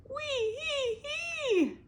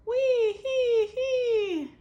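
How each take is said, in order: First: Very high, slow squeal. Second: Very high, slow, loud laughing; laughing back. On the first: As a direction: squeal like a stung man. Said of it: "Beatrice heard Abel squeal". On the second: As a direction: laugh it out gleefully. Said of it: "she laughed back". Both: Acted.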